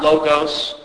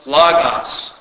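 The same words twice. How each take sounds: First: The vowels sound like 'oh'. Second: The vowels sound like 'ah'. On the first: The speaker calls it wrong. "not an O sound" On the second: The speaker calls it right. "omicron makes an A sound in Greek"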